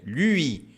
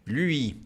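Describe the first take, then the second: No difference in how they are said.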